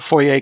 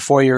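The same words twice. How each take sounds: First: It is said with a French pronunciation. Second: It is said with an English pronunciation. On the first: It keeps the form of the original borrowed word. "foyer, clearly a French word" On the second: It is the adapted form now accepted in English. "foyer is the English word that's now officially a word"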